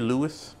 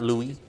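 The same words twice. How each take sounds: First: The final S sound is pronounced. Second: The final S sound is silent. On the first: The speaker calls it right. "Shouldn't it be Louis?" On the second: The speaker calls it wrong. "why is the S silent?"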